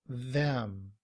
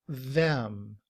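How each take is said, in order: Both takes have the same delivery.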